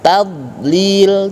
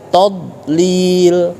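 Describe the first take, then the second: First: The first vowel is thin and light. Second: The first vowel is thick and darkened. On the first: The speaker calls it right. "tadlil tidak todlil" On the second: The speaker calls it wrong. "tidak todlil"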